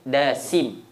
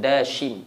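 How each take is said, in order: First: The middle consonant is a plain s sound. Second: The middle consonant is an sh sound. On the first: Another narration gives the name this way. The speaker calls it wrong. "Riwayat lain Dasim" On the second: This is the correct form of the name. The speaker calls it right. "Yang betul Dashim. Shin"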